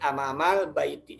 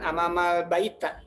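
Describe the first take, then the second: First: The last word ends in an i vowel. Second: The last word ends in an a vowel. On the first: The speaker calls it right. "tapi amamal baiti. Semua di kasroh" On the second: The speaker calls it wrong. "bukan amamal baita"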